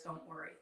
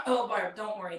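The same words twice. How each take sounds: First: Much softer, trailing away; fading mock reassurance. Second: Lightly voiced soothing friend, patting her on the head; easy, dismissive comfort; mock reassurance. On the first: Friends telling Barb not to worry, trailing off softly. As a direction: let it die off to almost nothing. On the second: Friends brushing off Barb's worry about the players, in mock reassurance. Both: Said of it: "everybody says".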